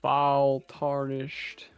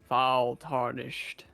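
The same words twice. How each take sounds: First: It is said in the speaker's normal voice. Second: It is said in Morgoth's character voice.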